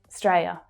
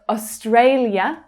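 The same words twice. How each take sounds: First: The first syllable is dropped completely. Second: The first syllable is pronounced fully. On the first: "sometimes even the first syllable gets completely dropped" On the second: "instead of Australia"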